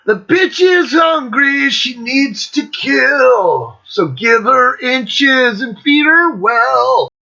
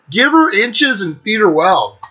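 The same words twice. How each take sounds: First: Put-on slow, higher rock singing with a German accent; sung, drawl it out like a German rock singer; sung German-accented lyric. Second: Said in the usual way. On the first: Recalling the singer's lyric, sung with German accent. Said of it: "he's got the sick German accent".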